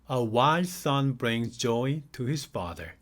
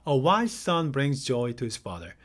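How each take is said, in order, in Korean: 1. 이 문장은 천천히 읽습니다. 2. 이 문장은 빠르게 읽습니다. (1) "천천히 읽겠습니다" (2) "조금 더 빠른 속도로 가겠습니다"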